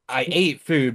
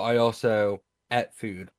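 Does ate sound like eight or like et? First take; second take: eight; et. First: Ate sounds like the number eight. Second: Ate sounds like et, with a short vowel.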